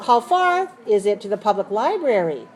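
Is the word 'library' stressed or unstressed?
stressed. Both 'how far' and 'library' are stressed. The speaker calls it right. "I need to stress that word"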